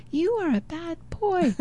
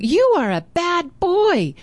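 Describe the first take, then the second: First: The insult comes back much softer; faint echo. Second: Put-on high and slow, a boy calling an insult; mock scolding call. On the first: Retold or imitated. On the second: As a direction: taunt the stranger in the woods. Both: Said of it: "So he's hearing the echo".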